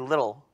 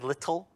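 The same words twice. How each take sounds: First: The middle t is a soft, d-like tap. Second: The middle t is a sharp, clear t sound. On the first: This is the American way of saying it. "We say little" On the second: This is the British way of saying it. "we don't pronounce TT as little, little orphan British boy"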